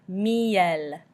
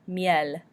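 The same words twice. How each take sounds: First: Miel stretched as mee-EL; drawn-out French pronunciation. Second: Said in the usual way. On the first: Shown as a demonstration. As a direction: say miel slowly, EE then a clear final L. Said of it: "that I making the E noise". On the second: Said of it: "and then we end with L".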